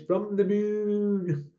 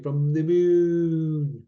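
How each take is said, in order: First: Higher, slow estate accent, drawn-out "moon"; slow, hammed-up northern English accent; put-on estate accent. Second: Manchester accent with a long held "moon"; lightly hammed-up Manchester accent. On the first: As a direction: exaggerate the local estate accent, stretching "moon". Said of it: "That's my accent from John from Welcome Estates". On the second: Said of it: "That's my Manchester accent". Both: Shown as a demonstration.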